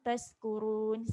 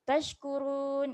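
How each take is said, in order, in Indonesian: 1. Kata ini diawali bunyi 's' biasa. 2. Kata ini diawali bunyi 'sh'. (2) "sebut betul-betul huruf shin"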